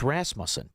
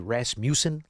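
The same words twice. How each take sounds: First: The name is said the ordinary way. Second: The name is said to sound like Rasputin. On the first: "It's Rasmussen" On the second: "it should be Rasmussen, like Rasputin?"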